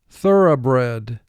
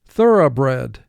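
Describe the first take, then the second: No difference in how they are said.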